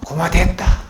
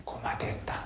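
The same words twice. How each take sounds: First: 고마됐다 said out loud and full; loud Gyeongsang 고마됐다 on request; louder. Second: Breathy whisper of 고마됐다 in Gyeongsang dialect. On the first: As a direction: say 고마됐다 again, loudly, in Gyeongsang dialect. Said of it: "다시 크게". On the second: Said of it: "경상도 사투리로 뭐라고요?". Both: Shown as a demonstration.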